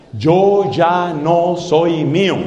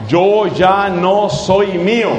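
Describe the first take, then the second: First: Slow, low, deliberate words; slow emphatic. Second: Slow repeat. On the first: Preacher to congregation, slow solemn phrase. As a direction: lay each word down slowly. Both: Shown as a demonstration. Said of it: "Son cinco palabras".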